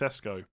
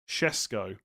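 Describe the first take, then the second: First: The name begins with a plain s sound. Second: The name begins with an sh sound. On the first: "just Sesko" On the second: "as if there's a H in it"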